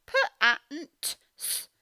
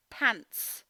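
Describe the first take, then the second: First: Pants broken into single sounds; sounding out pants. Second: Pants said whole with a clear final t; blended pants. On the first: Teacher sounding out pants again for children. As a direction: sound pants out slowly, letter by letter. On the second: Teacher blending pants as a whole word. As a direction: put the sounds together into pants. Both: Shown as a demonstration. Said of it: "It's difficult to hear that t".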